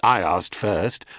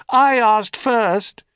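First: Said in the usual way. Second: High, slow echoed reply; helpless echo. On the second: A narrator's reading. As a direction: echo the words back. Echo repeats.

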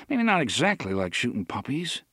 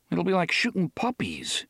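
First: Dry, wry second thought; wry reconsidering. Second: A gloomy inner grumble; glum. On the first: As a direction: take it back with a wry edge. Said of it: "Eddie decided". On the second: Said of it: "he thought glumly". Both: A narrator's reading.

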